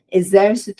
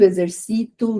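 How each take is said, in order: First: The stress falls on the third-to-last syllable. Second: The stress falls on the second-to-last syllable. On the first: It is a noun. "essas primeiras que eu tô falando são proparoxítonas" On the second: It is a verb form. "quando eu passo a falar como paroxítona"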